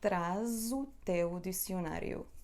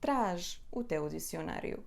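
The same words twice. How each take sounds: First: Traz runs into the next word with a z sound. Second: Traz is said apart, ending in an sh sound. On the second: "se não ligamos as palavras"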